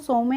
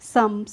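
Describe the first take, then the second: First: An extra vowel is sounded after the m. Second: No vowel is sounded after the m. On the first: The speaker calls it wrong. "हम इसको सौ में नहीं पढ़ते हैं" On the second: The speaker calls it right. "इसको हम पढ़ते हैं सम"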